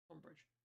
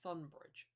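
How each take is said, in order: First: The word begins with a plain t sound. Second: The word begins with a th sound. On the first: The speaker calls it right. "That's Tunbridge" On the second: The speaker calls it wrong. "I just called it Thunbridge"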